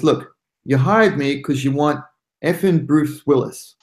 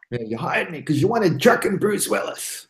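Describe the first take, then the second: First: Said in the usual way. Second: Lightly voiced movie tough guy; Bruce Willis. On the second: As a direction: slip into a Bruce Willis impression. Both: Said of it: "You can imagine him saying that".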